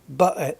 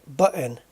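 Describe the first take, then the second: Both takes have the same delivery.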